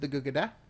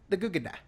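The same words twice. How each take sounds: First: The ending sounds of the words are kept. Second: The ending sounds of the words are dropped.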